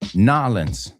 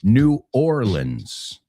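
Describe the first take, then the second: First: The name is squeezed into fewer syllables. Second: Every syllable of the name is said in full. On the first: This is how the locals say it. "lo convierte en una" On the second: This is the standard way to say it. "The technically correct way is"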